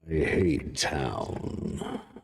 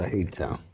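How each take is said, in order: First: It is said in a villainous put-on voice. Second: It is said in a natural speaking voice.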